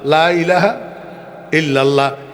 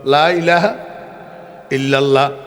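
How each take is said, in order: The two takes are said the same way.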